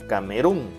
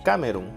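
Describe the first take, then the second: First: The stress is on the last syllable. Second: The stress is on the first syllable. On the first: "si le aplicamos la fuerza de voz a run" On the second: "Si fuera en K"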